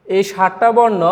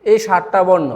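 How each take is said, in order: Both takes have the same delivery.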